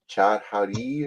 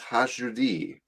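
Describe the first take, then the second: First: The name begins with a hard 'ch' sound. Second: The name begins with a soft 'h' sound. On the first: The speaker calls it wrong. "here they say Chat Hadi or something, and he's like, that's wrong" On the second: The speaker calls it right. "the C is silent. ... it's pronounced Hashudi"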